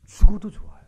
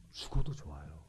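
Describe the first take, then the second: First: Loud, high-pitched declaration; emphatic proclamation. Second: Low, soft declaration; hushed confession. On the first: Believer declaring faith before death, loud proclamation. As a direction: proclaim it with sudden force, pitched up. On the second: Believer accepting death in faith, low and hushed. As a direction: say it quietly, pitched well down. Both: Acted.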